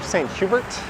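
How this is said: The name is pronounced the English way.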